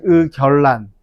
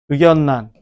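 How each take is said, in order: First: The middle consonants are both liquid l sounds. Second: The middle consonants are both nasal n sounds. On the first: The speaker calls it wrong. "유마가 일어나면 ... 이래야 된다고" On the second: The speaker calls it right. "비음으로 바뀌었네"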